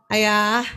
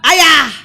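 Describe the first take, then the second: First: It is called at a normal low pitch. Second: It is called at a very high pitch.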